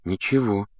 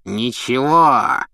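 First: Said in the usual way. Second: Slow, mocking sneer; scornful echo. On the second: A narrator's reading. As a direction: throw the word back slowly. Filch echoes scornfully.

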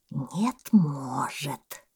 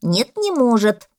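First: Very slow, drawn-out "Нет, может"; calmly objecting boa. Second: Loud, higher, emphatic denial; contradicting parrot. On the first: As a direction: contradict lazily, stretching each word. Boa calmly contradicts the parrot. (удав, невозмутимо и очень протяжно) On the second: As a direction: deny it loudly as the parrot. (попугай, громко и упрямо возражает) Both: A narrator's reading.

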